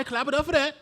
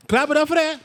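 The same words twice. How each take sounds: First: Said in the usual way. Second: Louder, higher rallying cry for applause; louder hype call. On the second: Acted. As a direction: pump the crowd up to clap. Host rallying applause, repeated louder.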